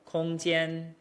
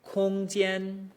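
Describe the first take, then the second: First: The level first tone sits at a lower pitch. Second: The level first tone sits at a higher pitch. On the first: "Sometimes a little lower" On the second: "For me, that's right around here"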